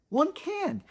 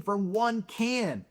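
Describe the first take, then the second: First: "One" jumps much higher, then falls; stress on ONE. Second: Said in the usual way. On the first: Shown as a demonstration. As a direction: lift the word "One" sharply up and let "can" drop.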